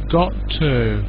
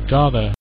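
First: The two words are said separately and fully. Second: The two words blend into a reduced form. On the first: "So got to"

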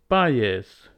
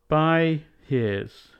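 First: The h is dropped, linked with a y. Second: The h of his is clearly pronounced.

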